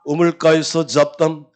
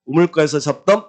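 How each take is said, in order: First: 우물가에서 drawn out, slow and weighty; slow stressed phrase. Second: Said in the usual way. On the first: Shown as a demonstration. Teacher drills the class slowly, stressing 우물가에서.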